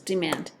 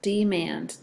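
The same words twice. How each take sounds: First: Said in the usual way. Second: "Demand" drawn out as de, mand; split into syllables. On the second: Shown as a demonstration. Teacher showing two syllables, "Demand" slowly in two parts. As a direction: give "Demand" two separate, even beats. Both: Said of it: "Two syllables".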